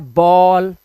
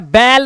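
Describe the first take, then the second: First: The vowel is a rounded aw sound. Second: The vowel is a flat ay-like sound. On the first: The speaker calls it right. "इसका उच्चारण होता है बॉल" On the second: The speaker calls it wrong. "कभी भी बाल या बैल नहीं होता"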